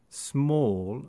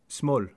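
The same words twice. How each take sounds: First: The vowel is held longer. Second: The vowel is clipped shorter.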